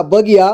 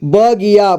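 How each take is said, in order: First: Said in the usual way. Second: बगिया as ब-गि-या; syllable by syllable. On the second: Shown as a demonstration. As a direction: sound out बगिया in three parts. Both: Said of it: "एक ही बार में पढ़ेंगे".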